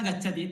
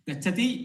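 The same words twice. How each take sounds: First: It is said with a plain statement tune. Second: It is said with a questioning tune. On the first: It states that someone is going. "यदि उच्यते तर्हि कश्चन गच्छति इत्यर्थः" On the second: It asks whether someone is going. "यदि मया पृच्छ्यते तर्हि सः प्रश्नार्थकः जातः"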